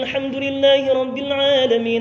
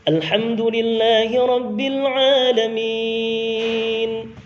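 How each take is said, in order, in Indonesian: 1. Dibaca dengan tempo cepat. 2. Dibaca dengan tempo sedang. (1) "tempo bacaan cepat" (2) "tempo bacaan sedang"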